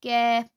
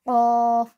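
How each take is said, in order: First: कैफ़ said thin and light, not thick; कैफ़: light k, thin bright vowel; light kaf. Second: क़ाफ़ said thick and full, uvular q; क़ाफ़: heavy uvular q, dark vowel; heavy qaf. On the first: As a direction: read कैफ़ light, like a plain k. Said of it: "इसको बारीक पढ़ेंगे". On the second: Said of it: "क़ाफ़, इसको मोटा पढ़ेंगे". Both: Shown as a demonstration.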